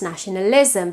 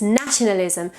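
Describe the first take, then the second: First: "nationalism" as "nationa-LIZ-m"; learner's late-stressed "nationalism"; misplaced stress. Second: "nationalism" as "NA-tionalism"; English front-stressed "nationalism"; initial stress. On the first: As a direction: lean late, on "lis" in "nationalism". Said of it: "tends to be pronounced". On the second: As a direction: lean on the first syllable of "nationalism". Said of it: "But it's nationalism". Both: Shown as a demonstration.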